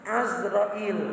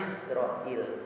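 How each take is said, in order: First: The name begins with an 'a' vowel. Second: The name begins with an 'i' vowel. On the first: This is the original form. The speaker calls it right. "Sebenarnya aslinya Azrail" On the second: This is the popular habitual form. The speaker calls it wrong. "lah terkenalnya Izrail"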